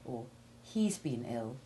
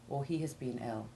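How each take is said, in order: First: The verb is contracted onto the pronoun. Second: The verb is full but said without stress. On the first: "you would more often say" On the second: "rather than"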